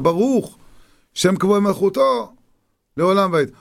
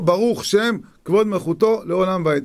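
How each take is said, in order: First: There is a pause after the first word. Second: The first words run together with no pause.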